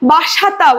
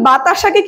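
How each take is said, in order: First: The second syllable is sa, the third ta. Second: The second syllable is ta, the third sa.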